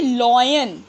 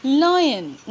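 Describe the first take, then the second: First: "lion" with a rounded lo-yen start, the common mistake; wrong lion. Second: "lion" said lie-en with an open lai start; correct lion. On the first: Teacher imitating the wrong way students say it. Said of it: "नहीं, absolutely wrong". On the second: Teacher modelling the correct word for students. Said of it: "ना कि lion". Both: Shown as a demonstration.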